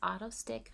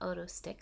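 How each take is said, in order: First: The name begins with an 'aw' sound. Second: The name begins with an 'oh' sound. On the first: The speaker calls it right. "It's pronounced Autostick" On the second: The speaker calls it wrong. "not Otostick, so I did mispronounce it"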